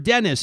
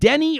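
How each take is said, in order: First: The name ends with an s sound. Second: The name ends without an s sound. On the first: The name is said the anglicized way. The speaker calls it right. "pronounced Dennis" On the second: The name is said the French way. The speaker calls it wrong. "anywhere else in Canada, you're Denny"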